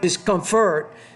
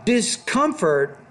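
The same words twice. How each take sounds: First: The stress is on the third syllable. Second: The stress is on the second syllable. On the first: The speaker calls it wrong. "not the third syllable" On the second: The speaker calls it right. "put the stress on that second"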